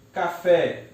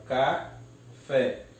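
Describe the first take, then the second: First: Said in the usual way. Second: "café" split slowly into ca, fé; syllable by syllable. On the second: Shown as a demonstration. Teacher separates the word, "café" syllable by syllable. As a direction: break "café" with a pause before fé. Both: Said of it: "eu separo".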